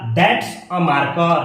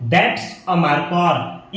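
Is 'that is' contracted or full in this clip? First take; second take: contracted; contracted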